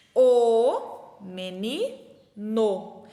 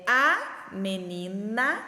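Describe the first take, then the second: First: Very slow "o menino", loud long "o" and separate "no"; contrasting gender endings. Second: Slow "a menina", long "a" and separate "na"; contrasting gender endings. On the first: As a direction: stretch the article and last syllable of "menino". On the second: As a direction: stretch the article and last syllable of "menina". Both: Shown as a demonstration. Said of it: "elas mudam".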